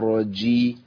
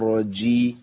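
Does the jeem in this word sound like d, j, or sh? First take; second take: d; d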